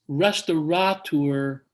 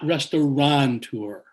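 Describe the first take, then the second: First: There is no n sound before the t. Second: An n sound comes before the t. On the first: The speaker calls it right. "Then it's restaurateur" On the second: The speaker calls it wrong. "not restauranteur"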